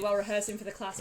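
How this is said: It is spoken in the speaker's natural accent. The speaker calls it right. "Let me do it in my natural accent"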